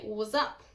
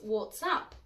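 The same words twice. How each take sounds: First: The words are smashed together into one reduced chunk. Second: Each word is pronounced clearly and separately. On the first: "often sounds more like" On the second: "the phrase"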